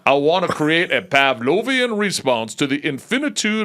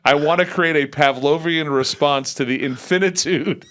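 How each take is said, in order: First: It is read in a put-on imitation of another voice. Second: It is read in an ordinary, natural speaking voice.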